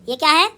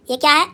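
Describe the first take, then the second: No difference in how they are said.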